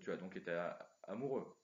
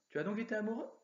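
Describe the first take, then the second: First: The voice falls at the end. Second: The voice rises at the end. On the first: It states a fact. "la différence avec une phrase affirmative" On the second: It asks a question. "Ça c'est la question"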